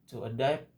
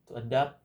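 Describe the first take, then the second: No difference in how they are said.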